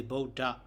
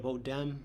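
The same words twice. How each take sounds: First: Bodha ending on an open a; no nasal ending. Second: Bodham closed with a nasal m; nasal ending. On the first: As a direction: say Bodha with no final m. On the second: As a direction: add a final m to Bodham. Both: Shown as a demonstration. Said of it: "instead of Bodham".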